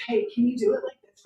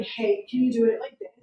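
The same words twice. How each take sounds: First: "do" lifted and stressed in "can you do it like this". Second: "you" leaned on in "can you do it like this"; stress on you. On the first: Director repeating the request, stressing "do". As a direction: repeat the request, hitting "do" a bit higher. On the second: Director asking again, pressing on "you". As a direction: ask it pushing the word "you". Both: Retold or imitated. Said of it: "Jordan would be like".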